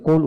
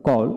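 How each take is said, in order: First: কোল with a rounded "o" vowel; British vowel. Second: কল with an open "aw" vowel; American vowel. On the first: Teacher contrasts the British form for learners, British vowel. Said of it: "British উচ্চারণে কোল উচ্চারণ করা হয়". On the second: Teacher models the American form for learners, American vowel. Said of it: "প্রথমটি American উচ্চারণ". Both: Shown as a demonstration.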